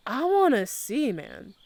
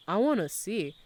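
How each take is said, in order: First: "wanna see" pitched up, then "man" dropped; insistent plea. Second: Said in the usual way. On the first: Real, not acted. Streamer asking chat for the link, insistent. Repeats request more insistently.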